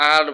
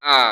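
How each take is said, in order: First: "আর" with the final r sounded; common mispronunciation. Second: "আ" as a long open vowel, no r; correct silent R. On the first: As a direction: close "আর" on an audible r. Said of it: "কিন্তু এটা শুদ্ধ উচ্চারণ হচ্ছে". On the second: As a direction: drop the r, leaving "আ". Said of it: "শুদ্ধ উচ্চারণ হচ্ছে". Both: Shown as a demonstration.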